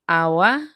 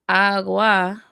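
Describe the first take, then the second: First: The g sound is soft, almost missing. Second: The g sound is hard and clear. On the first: "with the absent head sound" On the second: "with the hard head sound, giving you g"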